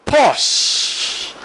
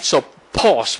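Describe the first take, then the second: First: A single drawn-out whispered "Pause." with a falling end. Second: Said in the usual way. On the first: Shown as a demonstration. Teacher modelling the pause step, whispered. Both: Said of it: "You can learn to pause".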